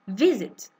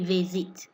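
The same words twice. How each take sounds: First: The stress falls on the first syllable. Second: The stress falls on the second syllable. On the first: The speaker calls it right. "You just say visit. ... There's more stress on the first I" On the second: The speaker calls it wrong. "You don't say visit"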